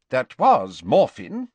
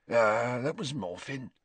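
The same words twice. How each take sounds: First: Said in the usual way. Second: Indifferently. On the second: A narrator's reading. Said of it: "said the old man indifferently".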